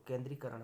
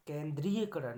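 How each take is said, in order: First: Said in the usual way. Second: केंद्रीयकरण said 'kendri-ya-karan', louder; extra 'ya' syllable. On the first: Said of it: "होता है". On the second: Shown as a demonstration. Teacher rejecting a wrong form, केंद्रीयकरण with added 'ya'. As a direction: put a clear 'ya' inside केंद्रीयकरण. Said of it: "केंद्रीयकरण नहीं होगा".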